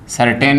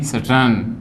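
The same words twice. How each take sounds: First: सर्टेन with a full टे sound; wrong long vowel. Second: सर्टन with a neutral vowel in टन; correct short vowel. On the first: Teacher names the form to avoid, wrong long vowel. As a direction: lengthen the second vowel in सर्टेन. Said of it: "नहीं". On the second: Teacher gives the corrected form, correct short vowel. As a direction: shorten the second syllable of सर्टन. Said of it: "टे नहीं टे". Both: Shown as a demonstration.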